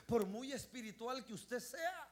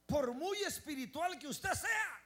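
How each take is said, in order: First: Said in the usual way. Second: Slow, raised, emphatic repeat; preacher repeating for emphasis, louder. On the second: Shown as a demonstration. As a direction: lift it up louder the second time. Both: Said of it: "repeated louder".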